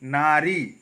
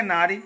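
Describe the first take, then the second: First: नारी with both vowels held long; correct pronunciation. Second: नारी with a short ending; wrong pronunciation. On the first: Teacher correcting the slip, correct pronunciation. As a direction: draw out नारी to its ending. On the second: Teacher quoting how people say it, wrong pronunciation. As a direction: say नारी quickly, last vowel short. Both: Shown as a demonstration. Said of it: "नारी नहीं".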